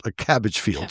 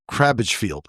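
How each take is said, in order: First: Said in the usual way. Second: "cabbage" misread with an extra r, as "crabbage"; "cabbage" mispronounced as "crabbage"; slip of the tongue. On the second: Real, not acted. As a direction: stumble on "cabbage", slipping an r in after the c.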